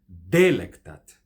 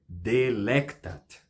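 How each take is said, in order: First: The stress is on the first syllable. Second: The stress is on the second syllable. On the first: The speaker calls it wrong. "Se a primeira fosse tônica, então teríamos delectat" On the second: The speaker calls it right. "A sílaba tônica nessa palavra é lec"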